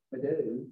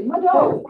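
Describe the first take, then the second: First: Low, soft, toneless thank-you; without feeling. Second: Loud, high, heartfelt thank-you; with feeling. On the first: Teacher showing how not to thank somebody, no feeling. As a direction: mumble it lifelessly, much quieter. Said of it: "You can't just walk up to somebody and say". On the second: Teacher showing how to thank somebody, full of feeling. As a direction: put feeling in it, lifting the pitch high. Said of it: "you say it with feeling". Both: Shown as a demonstration.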